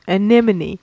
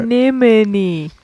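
First: Said in the usual way. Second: "Anemone" drawn out syllable by syllable; slow demonstration. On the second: Shown as a demonstration. Co-host teaching the disputed word, "Anemone" said slowly. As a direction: say "Anemone" slowly and deliberately, stretched out.

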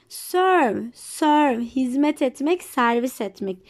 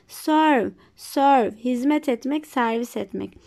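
Both takes have the same delivery.

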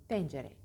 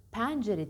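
First: Pencere with a narrow "e"; correct closed E. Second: Pencere said as "päncere"; wrong open E. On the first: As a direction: model pencere, lower and closed. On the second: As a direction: exaggerate Pencere with a wide "æ". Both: Shown as a demonstration. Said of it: "Pencere değil".

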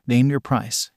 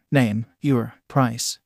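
First: Said in the usual way. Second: Slow, each word set apart; slow and deliberate demand with a gap after each word; insistent. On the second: A narrator's reading. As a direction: insist on it word by word, at half speed. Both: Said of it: "the Hansi villain insisted".

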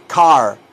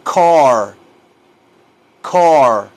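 First: CAR with a plain open "ah"; the mistaken "car" to avoid, with "ah"; wrong pronunciation. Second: CAR loud and long with a rounded vowel; teacher's model "car", rounded and stretched; correct pronunciation. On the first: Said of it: "no se dice car". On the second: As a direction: drill "car" drawn out for learners. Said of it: "se dice". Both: Shown as a demonstration.

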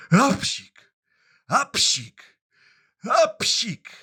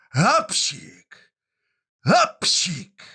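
First: Three high, loud sneezes, ap-sik; three acted sneezes. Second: Two big high sneezes, hap-sik; loud acted sneezes. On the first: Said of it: "I znowu kichnął trzy razy". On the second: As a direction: sneeze loudly twice, rising the second time. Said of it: "I znowu kichnął dwa razy".

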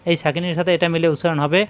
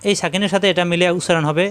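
Both takes have the same delivery.

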